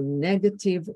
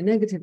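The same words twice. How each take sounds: First: Negative with a strong puff of air on the K; aspirated K. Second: Negative said plainly, without the strong K aspiration; a flat everyday negative. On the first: Teacher showing the aspirated K in negative. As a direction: breathe out hard on the K in negative. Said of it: "with the aspiration on K". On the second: Teacher contrasting the plain take of negative. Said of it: "makes it sound actually negative". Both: Shown as a demonstration.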